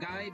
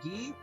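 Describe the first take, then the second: First: The name is said with an English pronunciation. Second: The name is said with a French pronunciation. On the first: "I'm gonna probably keep on calling him Guy" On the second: "if he was French-Canadian, it would be pronounced Guy"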